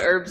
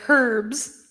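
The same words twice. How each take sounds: First: It is said in an American accent, h silent. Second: It is said in an English accent, h pronounced.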